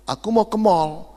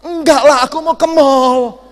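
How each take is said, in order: First: Said in the usual way. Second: Higher, much louder exasperated yell; shouting wife. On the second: Retold or imitated. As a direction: bellow it so he finally hears. Wife yells at deaf husband.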